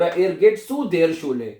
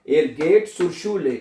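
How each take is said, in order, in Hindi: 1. प्रीपोज़िशन और आर्टिकल दो अलग शब्दों की तरह बोले जाते हैं। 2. प्रीपोज़िशन और आर्टिकल मिलकर एक शब्द बन जाते हैं। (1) "और एरगेट सु देर शूले" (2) "ऐसे भी पढ़ सकते हैं"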